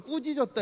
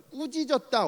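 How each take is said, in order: First: "꾸짖었다." again higher with a falling end; 꾸짖었다 repeated. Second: "꾸짖었다." said higher with a falling end; 꾸짖었다 stressed. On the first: Preacher repeating the original word, emphatic. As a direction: stress 꾸짖었다. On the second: Preacher giving the original wording, emphatic. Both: Shown as a demonstration. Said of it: "원어로는".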